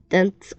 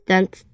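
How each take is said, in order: Both takes have the same delivery.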